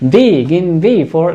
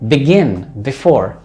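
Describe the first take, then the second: First: The stress is on the first syllables. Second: The stress is on the last syllables. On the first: The speaker calls it wrong. "no that's not the way" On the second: The speaker calls it right. "that is the correct way"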